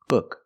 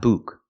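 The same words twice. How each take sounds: First: The vowel is a short uh sound. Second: The vowel is a long oo sound. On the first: The speaker calls it right. "The word is pronounced book, book" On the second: The speaker calls it wrong. "not book. Don't use the long oo like food"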